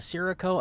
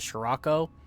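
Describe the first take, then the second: First: The word is given an English-style pronunciation. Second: The word is given an Italian-style pronunciation. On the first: This is how other people commonly say it. The speaker calls it wrong. "I've heard people say this is" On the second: This follows the word's Italian origin. The speaker calls it right. "I'm pretty sure it's supposed to be pronounced the Scirocco because I think it's an Italian word"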